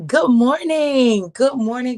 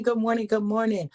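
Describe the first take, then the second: First: Loud, slow, stretched greeting; loud fast street hustling. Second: Said in the usual way. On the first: Real, not acted. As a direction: belt the greeting out long. Greeting viewers loudly, drawn out.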